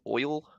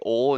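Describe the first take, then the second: First: The vowel glides from 'o' to 'ee'. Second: The vowel is a single flat sound. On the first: The speaker calls it right. "instead of "oil."" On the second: The speaker calls it wrong. "I say "ol." I can't pronounce"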